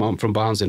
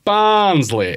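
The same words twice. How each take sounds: First: Said in the usual way. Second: "Barnsley?" high and loud in a mock Yorkshire accent; a southerner mimicking the Yorkshire "Barnsley?"; mocking Yorkshire echo. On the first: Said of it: "repeat what I say". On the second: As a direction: parrot "Barnsley?" back in a put-on Yorkshire accent. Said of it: "repeat what I say in as if they're in my accent".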